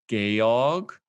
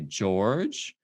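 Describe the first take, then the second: First: The name is pronounced the German way. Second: The name is pronounced the English way. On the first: "the German version of George" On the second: "you can say George"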